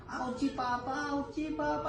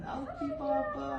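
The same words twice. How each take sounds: First: Lightly voiced child in pain, higher; mock whimper of a hurting kid; pretend hurting child. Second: Put-on much higher, soft child's whimper; playful high mock cry for Papa; squeaky pretend pain. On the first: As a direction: play the child saying it hurts, softly. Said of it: "Kunyari, sobrang masakit". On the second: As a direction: squeak it out like a tiny hurting kid. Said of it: "may sakit pa rin".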